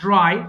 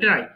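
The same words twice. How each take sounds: First: The r sound is strong and clear. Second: The r sound is weak and plain. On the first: The speaker calls it right. "তখন ভালো লাগবে" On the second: The speaker calls it wrong. "আমরা আমরা ড্রাই বলি"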